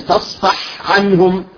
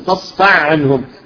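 First: The h is clear and breathy before ain. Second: The h merges into the following ain sound. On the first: The speaker calls it right. "تخرجها صافية" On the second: The speaker calls it wrong. "بعضهم يقول فاصفع عنهم، تخرج كأن تدغم بالعين"

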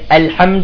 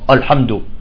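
First: The opening hamza is light and thin. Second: The opening hamza is heavy and emphatic. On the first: The speaker calls it right. "كل الناس بيقولوا الحمد برققها" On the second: The speaker calls it wrong. "بعض الأعاجم بيقول لك الحمد"

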